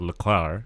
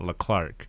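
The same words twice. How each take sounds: First: The name ends with no k sound. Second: The name ends with a k sound. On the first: The speaker calls it right. "the C does not exist in his last name because they pronounce it Leclerc" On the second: The speaker calls it wrong. "and not Leclerc, which obviously is incorrect because I'm American"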